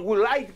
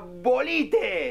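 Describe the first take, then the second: First: Woolite is pronounced the English way. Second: Woolite is pronounced as spelled in Spanish. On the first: The speaker calls it wrong. "Si uno quiere comprar jabón Woolite" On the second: The speaker calls it right. "compra Bolite"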